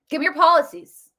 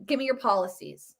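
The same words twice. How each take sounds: First: A firm demand landing hard on policies; stress on policies. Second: Said in the usual way. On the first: Shown as a demonstration. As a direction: Give me your POLICIES, pushed up and louder.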